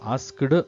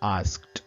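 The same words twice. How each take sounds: First: The ending is sounded as a separate extra syllable. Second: The ending is a short clipped sound, one syllable. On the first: The speaker calls it wrong. "ಆಸ್ಕ್ಡ್ ಅಂತ ಹೇಳಬಾರ್ದು" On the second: The speaker calls it right. "ಆಸ್ಕ್ಡ್ ಅಂತ ಹೇಳಬೇಕು"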